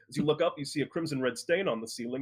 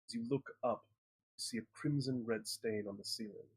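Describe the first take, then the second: First: It is said in a plain, flat way. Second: It is said in a spooky, eerie way.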